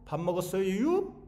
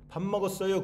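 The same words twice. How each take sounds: First: It is said in Chungcheong regional dialect. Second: It is said in standard Seoul Korean. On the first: "충청도를 딱 가봤어. 근데 ... 라고 안 하고, ... 이런단 말이에요" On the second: "그래야 되는데"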